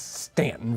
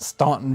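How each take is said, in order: First: The first vowel sounds like 'a' in 'can'. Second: The first vowel sounds like 'aw' in 'saw'. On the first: The speaker calls it right. "it's Stanton, Virginia" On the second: The speaker calls it wrong. "no, it's not Staunton, Virginia"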